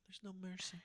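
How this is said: It is said in a sad, dismayed tone. The news is upsetting. "Oh no, like I'm sad"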